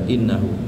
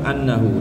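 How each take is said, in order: First: The word begins with an 'i' vowel. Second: The word begins with an 'a' vowel. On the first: It starts a new statement. "bil kasri istinafan dengan kasrohnya hamzah" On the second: A preposition meaning 'because' is understood before it. "Wal fathi atau annahu dengan fathah"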